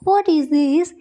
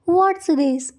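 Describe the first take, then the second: First: The word 'is' is said in full. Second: The word 'is' is contracted onto 'what'. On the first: "या फिर what इज this" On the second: "आप इस तरह से भी बोल सकते हो व्हाट्स दिस"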